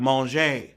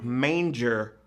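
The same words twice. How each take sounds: First: It is said with a French pronunciation. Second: It is said with an English pronunciation. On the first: It means to eat. "when the French are hungry, they start talking about manger" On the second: It means a crib for animals' feed. "It's sure not pronounced the same"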